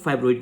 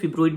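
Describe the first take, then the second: First: The first vowel sounds like 'eye'. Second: The first vowel is a short 'i'. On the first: This is the form generally used. "Generally जो है वो हम फाइब्रॉइड use करते हैं" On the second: This form is used in UK English. "UK English में अगर हम देखें ना तो उसको हम फिब्रॉइड भी बोल सकते हैं"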